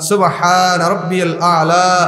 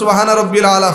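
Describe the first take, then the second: First: The phrase is said slowly and calmly. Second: The phrase is said quickly and hurriedly. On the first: The prostration is performed with calm attention. The speaker calls it right. "যত ধীরে স্থির ভাবে" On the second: The prostration is rushed as if in a race. The speaker calls it wrong. "কত দ্রুত"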